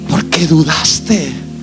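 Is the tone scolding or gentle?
gentle. It is said gently, with a smile.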